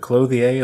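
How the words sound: The word is said with a French-sounding accent. The speaker calls it wrong. "I always say clothier in a French accent or some sort of weird pronunciation"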